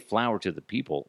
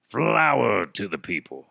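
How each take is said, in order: First: The phrase is said in a plain, ordinary voice. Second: The phrase is said in a dramatic announcer voice. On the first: The speaker calls it wrong. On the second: The speaker calls it right.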